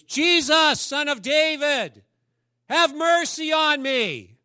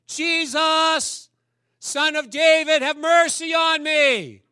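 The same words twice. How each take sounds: First: High, loud, slow desperate cry; beggar crying out. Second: High, loud, slow desperate shout; yells louder. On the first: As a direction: call out across the crowd for mercy. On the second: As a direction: cry out even louder over the crowd. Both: Acted. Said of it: "He yells louder".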